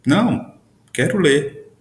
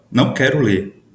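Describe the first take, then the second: First: Não high, pause, then quero ler; pause after não. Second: Não quero ler. in one phrase; no pause. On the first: Teacher reading Não, quero ler. with a high Não. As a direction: lift Não and break before quero ler. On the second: Teacher reading Não quero ler. flowing. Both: Shown as a demonstration. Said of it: "percebam a diferença de entonação".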